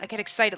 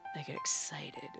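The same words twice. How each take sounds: First: It sounds cheerful and innocently enthusiastic. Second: It sounds sultry and suggestive. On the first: The speaker is simply happy about something. "like, oh my god, I'm so excited about Christmas" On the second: The speaker is sexually aroused. "it's dirty"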